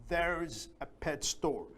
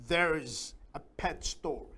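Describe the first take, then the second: No difference in how they are said.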